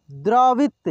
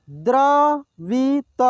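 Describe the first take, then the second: First: Said in the usual way. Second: द्रवित drawn out slowly, syllable by syllable; slow sounding out. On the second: Shown as a demonstration. Teacher slowly sounds out द्रवित for students. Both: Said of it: "एक एक मात्रा को अलग अलग करके".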